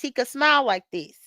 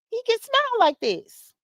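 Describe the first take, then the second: First: Said in the usual way. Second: Much higher, grinning delivery of "He can smile like this"; big showy smile. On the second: Shown as a demonstration. Showing Lemon his new dentist smile, high and grinning. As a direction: say "He can smile like this" high through a wide grin.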